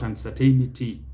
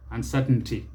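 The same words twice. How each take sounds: First: Uncertainty as un-sur-TAY-ni-tee; mispronunciation. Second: Uncertainty as un-SUR-tn-tee; correct pronunciation. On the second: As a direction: swallow the "ai" in uncertainty. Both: Shown as a demonstration. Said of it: "not uncertainty".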